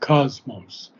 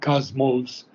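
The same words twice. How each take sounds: First: The stress is on the first syllable. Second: The stress is on the second syllable. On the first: The speaker calls it right. "Accent being the first syllable" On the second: The speaker calls it wrong.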